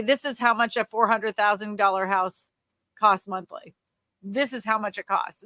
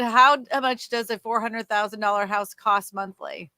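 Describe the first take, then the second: First: Firm declarative; statement form. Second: Asked as a question; question form. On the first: Coach giving the better statement title. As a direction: tell them the answer outright. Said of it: "You'd say". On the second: Coach quoting the question title. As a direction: read it as the viewer's question. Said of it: "see how you said". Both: Shown as a demonstration.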